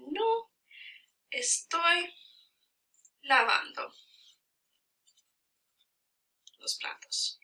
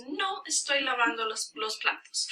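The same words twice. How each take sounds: First: Slow Spanish, long gaps between words; word-by-word dictation. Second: Said in the usual way. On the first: Shown as a demonstration. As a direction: spell out the sentence at writing speed. Writing out the corrected sentence.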